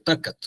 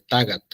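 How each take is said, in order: First: The middle consonant is a voiceless k sound. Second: The middle consonant is a voiced g sound. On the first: This is the pronunciation without the local change. "en lugar de" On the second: This is the pronunciation of the Apaneca area. "este bonito fenómeno de la sonorización"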